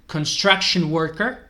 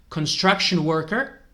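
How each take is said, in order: Both takes have the same delivery.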